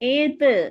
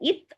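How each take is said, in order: First: The final consonant is released with a bouncing echo. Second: The final consonant stops dead with no echo. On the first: The speaker calls it right. "இந்த மாதிரி அசைச்சு சொல்லணும்" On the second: The speaker calls it wrong. "இத் அப்படி சொல்லாம"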